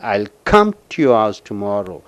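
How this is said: The word come is stressed. The speaker will come without fail. "கம்முக்கு அழுத்தம் கொடுக்கும் பொழுது"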